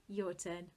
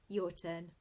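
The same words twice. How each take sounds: Both takes have the same delivery.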